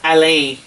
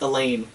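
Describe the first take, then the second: First: The name is said with French vowels. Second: The name is said like English 'Elaine'. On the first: The speaker calls it right. "it is Alain" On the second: The speaker calls it wrong. "they pronounce it Elaine"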